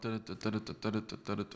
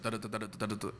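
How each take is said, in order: First: The syllables are said slowly. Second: The syllables are said fast.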